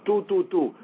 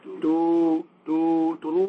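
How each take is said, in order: First: Short clipped "two, two, two" like staccato shofar notes; staccato blasts. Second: Drawn-out "two, two, two" like long shofar notes; long drawn blasts. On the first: Teacher demonstrating short staccato shofar blasts. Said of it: "The yebaba is a staccato sound". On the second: Teacher demonstrating longer shofar blasts. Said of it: "A shivarim is more like". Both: Shown as a demonstration.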